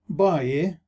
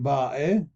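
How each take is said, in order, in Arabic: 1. بعد الحركة صوت ياء. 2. بعد الحركة حرف حلقي. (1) "نقول باي" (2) "بدلا من باء"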